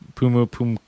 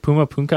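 First: The last syllable ends with an 'oo' vowel. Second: The last syllable ends with an 'ah' vowel. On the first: The speaker calls it right. "Okay, I got it" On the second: The speaker calls it wrong. "I always think I say it wrong"

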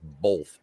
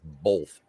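First: The word is said with an L sound. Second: The word is said with an L sound.

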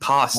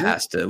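First: It is said the American way. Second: It is said the way British chefs say it.

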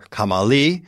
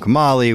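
First: The name is said with a Persian accent. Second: The name is said with an English accent.

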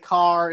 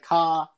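First: The final R sound is clearly pronounced. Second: The final R sound is dropped. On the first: This is how people outside Boston say it. "They pronounce the R's" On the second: This is how Boston locals say it. "that thick Boston accent"

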